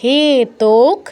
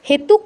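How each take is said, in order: First: The second syllable has an o vowel. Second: The second syllable has a u vowel. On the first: The speaker calls it right. "ওকার, উকার নয় কিন্তু" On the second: The speaker calls it wrong. "হেতুক নয়"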